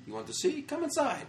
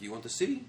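First: Very high-pitched imitation of an Arab guy; imitated eager tout. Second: Imitated Arab tout. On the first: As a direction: coax them in, squeaky and insistent. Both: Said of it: "the Arab guy's like".

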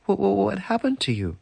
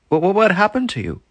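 First: High stammering amazement; astonished. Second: Loud high stammering shock; astonished. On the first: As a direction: sputter it in wonder. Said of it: "she said". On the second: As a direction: gasp it out in disbelief. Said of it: "said the landlord". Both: Acted.

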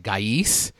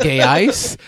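First: Gais said as GUY-ees; alternative pronunciation. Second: Gais said as GAY-ice, questioning; alternative pronunciation. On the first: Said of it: "I don't wanna butcher his name". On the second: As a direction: try Gais as "gay-ice", higher and rising. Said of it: "how do you pronounce his name". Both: Shown as a demonstration.

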